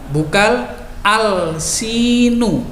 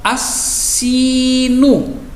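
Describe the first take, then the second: First: The l is clearly pronounced before the s. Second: The l merges into a doubled s sound. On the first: The speaker calls it wrong. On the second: The speaker calls it right. "alnya terbaca dengan samar atau tidak jelas"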